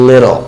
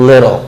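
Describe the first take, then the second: No difference in how they are said.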